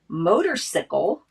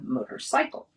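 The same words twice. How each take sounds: First: The ending sounds like 'sickle'. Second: The ending sounds like 'cycle'.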